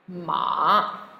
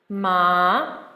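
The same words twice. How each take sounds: First: The pitch dips low and comes back up. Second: The pitch rises from middle to high. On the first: "third tone. Remember, the dipping tone" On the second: "second tone. Remember to think of green, the green plant growing up, going upwards"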